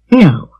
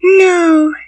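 First: Lower, short falling no; firm adult refusal. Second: Put-on high, downcast little-girl voice; sad child. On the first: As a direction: refuse it as a no-nonsense woman. Marilla firmly refuses the child. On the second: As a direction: say it sadly as a small girl. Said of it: "said the child sadly". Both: A narrator's reading.

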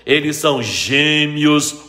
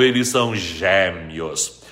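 First: GÊMEOS with a closed e. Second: GÉMEOS with a wide open e, lower. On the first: Teacher contrasting both accepted forms, gêmeos with closed E. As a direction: say gêmeos with a tight, closed first E. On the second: Teacher contrasting both accepted forms, gêmeos with open E. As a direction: drop down and open the first E of gêmeos. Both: Shown as a demonstration. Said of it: "pode ter acento agudo quanto circunflexo".

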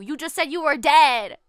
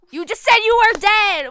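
First: Said in the usual way. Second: Louder, higher exasperated repeat. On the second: Real, not acted. Player arguing with the ghost, repeating louder and fed up.

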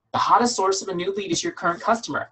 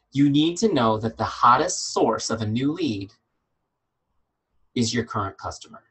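First: "hottest" lifted high and hit hard, then falling; emphatic repeat. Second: Each word laid down slowly and evenly, "hottest source" given weight; slow and deliberate. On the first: Coach repeating the key line to her team, higher and punchier. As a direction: hammer it home a second time, higher. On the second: Coach spelling out a key sentence to her team, slow and measured. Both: Shown as a demonstration. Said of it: "I can't say this enough".

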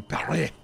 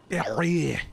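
First: Said in the usual way. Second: Paris said the French way as "Pari", s dropped, stress at the end; "Paris" pronounced Pah-REE, no final s, a bit louder. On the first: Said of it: "That's how they say it in". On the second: Shown as a demonstration. Streamer showing chat the French way, mock French Paris. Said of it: "That's how they say it in, in, uh, Paris".

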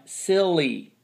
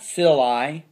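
First: "silly" said as sill-ee; long E ending. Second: "silly" said as sill-eye; wrong long I ending. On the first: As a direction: end "silly" on a long, falling ee. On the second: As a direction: end "silly" on an eye sound, slowly. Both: Shown as a demonstration. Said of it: "Not silly".

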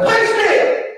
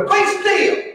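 First: High shouted "Be still!" as a command. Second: Put-on high shouted Georgia-accented "Be still!"; "Be still!" drawn out like a Georgia preacher, shouted high. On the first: Shown as a demonstration. Preacher shows the congregation how to command, shouted "Be still!". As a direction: bark "Be still!" high at the storm. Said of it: "You just gotta say". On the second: Preacher shows how Georgians say it, shouted Georgia-accented "Be still!". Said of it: "like they say in Georgia".

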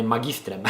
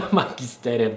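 First: "magistrem" bez „e” między t a r; poprawna forma. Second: "magisterem" with an extra e between t and r; przejęzyczenie. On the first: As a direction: say "magistrem" in three syllables, ma-gis-trem. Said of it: "teraz powiedziałem". (poprawione „magistrem”, trzy sylaby) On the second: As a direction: repeat the slip "magisterem" in four syllables, ma-gi-ste-rem. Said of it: "magisterem teraz powiedziałem". (błędne „magisterem”, z dodatkowym „e”) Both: Shown as a demonstration.

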